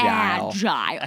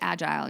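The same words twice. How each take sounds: First: The word is said slowly and drawn out. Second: The word is said quickly and plainly. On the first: The word sounds gross. "But if you go agile, oh my gosh, what a gross word" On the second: The word sounds ordinary. "if you just said agile, you're like whatever"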